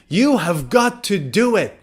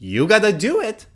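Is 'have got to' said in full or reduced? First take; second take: full; reduced. First: The words are said fully and separately. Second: The words blend into a short reduced form.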